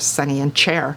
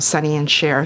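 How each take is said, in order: First: The last word starts with a 'ch' sound. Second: The last word starts with a 'sh' sound. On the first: The speaker calls it wrong. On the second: The speaker calls it right.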